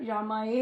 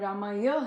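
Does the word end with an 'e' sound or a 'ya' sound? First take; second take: e sound; ya sound. First: The word ends with an 'e' sound. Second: The word ends with a 'ya' sound. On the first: The speaker calls it wrong. "वहां पर रामाए ही बोला जाता है" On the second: The speaker calls it right. "पर रामाय है"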